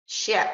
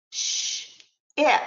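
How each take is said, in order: First: Said in the usual way. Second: A whispered "Sh", a pause, then "ip"; segmented sounds. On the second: Shown as a demonstration. Teacher modelling onset and rhyme, sounds apart. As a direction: split the sounds as "Sh" and "ip". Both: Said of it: "let me give you a few examples".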